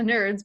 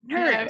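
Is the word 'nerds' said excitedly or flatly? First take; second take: flatly; excitedly. First: The word is said flatly, without exclamation. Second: The word is said excitedly, like an exclamation. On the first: Being a nerd is something to mock. The speaker calls it wrong. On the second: Being a nerd is something to celebrate. The speaker calls it right.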